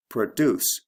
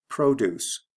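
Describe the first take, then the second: First: "Produce" as the verb pro-DUCE, weak first vowel; stress on second syllable. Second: "produce" as the noun PRO-duce, long O; stress on first syllable. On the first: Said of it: "We have stress and also sound changes". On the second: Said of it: "produce has a long O". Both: Shown as a demonstration.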